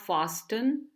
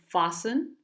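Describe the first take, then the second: First: The T sound is pronounced in the middle. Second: The T sound is silent in the middle. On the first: The speaker calls it wrong. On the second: The speaker calls it right.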